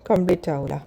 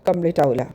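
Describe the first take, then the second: The two takes are said the same way.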